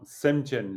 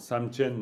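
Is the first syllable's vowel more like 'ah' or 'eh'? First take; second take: eh; ah. First: The first vowel sounds like 'eh'. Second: The first vowel sounds like 'ah'. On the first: The speaker calls it right. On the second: The speaker calls it wrong.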